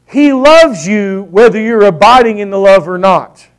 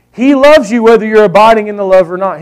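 First: Loves stressed; emphatic. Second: He "loves" you, louder and punched; emphatic repeat. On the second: Preacher repeating the key line to his church, louder. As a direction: lean hard on "loves". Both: Shown as a demonstration. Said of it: "This is important".

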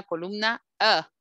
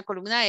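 First: "A" in "columna A" said as in glass; short A sound. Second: "A" in "columna A" said "ey"; gliding English "ay" for "A"; long A sound. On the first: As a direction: say "A" as a short "a/uh", no glide. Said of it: "color celeste van en la columna A". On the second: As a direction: say "A" like the vowel in cake. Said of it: "el color amarillo van en la columna A". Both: Shown as a demonstration.

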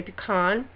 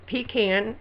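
First: Pecan said pi-KAHN, stress on the second part; pecan with a long ah in the second part; other people's pecan. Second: Pecan said PEE-can, stress on the first part; pecan with a short second a; her own pecan. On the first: Showing how others say it, pecan as pi-KAHN. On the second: Reading her word list, says pecan as PEE-can. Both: Shown as a demonstration. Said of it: "some people say pecan".

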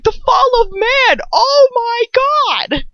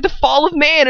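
First: High, drawn-out exclamation of amazement; exclaimed revelation. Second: Said in the usual way. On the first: Retold or imitated. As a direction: draw it out slowly in a high, hammed-up cry. Acts out own shocked realization.

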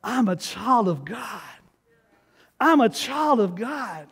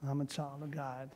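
First: Slow, firm, each word planted; bold declaration. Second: Barely audible, timid and unsure; meek mumble. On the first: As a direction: declare it with full conviction. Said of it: "It's like, look". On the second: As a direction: mumble it like you don't believe it. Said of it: "Oh, no, you can't". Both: Shown as a demonstration.

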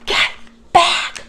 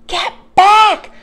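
First: Forceful, breath-only stage whisper; urgent whisper. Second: High, loud shouted warning; alarmed shout. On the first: Jack warning Annie back from the dinosaur, urgent whisper. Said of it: "whispered Jack". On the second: Jack yelling at Annie near the Triceratops, alarmed shout. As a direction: shout it sharply at full voice. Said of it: "Jack shouted at her". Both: A narrator's reading.

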